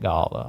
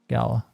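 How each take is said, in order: First: The word is said the British way. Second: The word is said the non-British way. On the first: The speaker calls it wrong. "The British say it Gala" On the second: The speaker calls it right. "I'll say Gala from now on"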